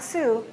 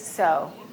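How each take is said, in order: First: The vowel sounds like oo. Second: The vowel sounds like oh. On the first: The speaker calls it wrong. "it's not sew" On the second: The speaker calls it right. "it's sew"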